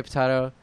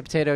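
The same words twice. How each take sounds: First: Potato said as pot-AH-to. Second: Potato said as pot-AY-to. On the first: Retold or imitated. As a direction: say potato the pretentious way, potahto. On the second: Shown as a demonstration. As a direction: say potato with a long ay vowel. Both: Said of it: "I say potato, you say potato".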